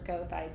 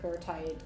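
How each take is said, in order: First: The name is said in plain English style. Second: The name is said in German style.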